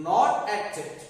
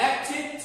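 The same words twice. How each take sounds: First: "acted" as "ak-ted"; wrong -ted ending. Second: "Acted" as "ak-tid", pitched higher; short i in the end of "Acted"; correct -tid ending. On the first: Teacher rejects the mistake, "acted" with -ted. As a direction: open e in the end of "acted". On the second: Teacher models the right form, "Acted" with -tid. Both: Shown as a demonstration.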